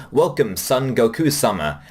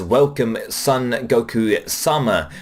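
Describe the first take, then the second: First: Said in the usual way. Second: Slow, deliberate, stiffly polite welcome; formal greeting. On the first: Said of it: "In the Japanese, she says". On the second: Retold or imitated. Receptionist formally welcoming Goku at Capsule Corporation, slow and stiff. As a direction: greet him with measured, careful politeness. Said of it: "it is an extremely formal greeting".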